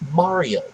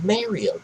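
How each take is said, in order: First: The first vowel sounds like 'ah'. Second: The first vowel sounds like 'air'. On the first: The speaker calls it right. "they pronounce it with an ah sound" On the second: The speaker calls it wrong. "There is no Mario"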